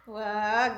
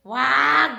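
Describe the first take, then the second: First: Said in the usual way. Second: Loud, sudden stop order; sharp prohibition. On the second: Real, not acted. Stopping the child, then repeats softer. (malakas na pagsaway)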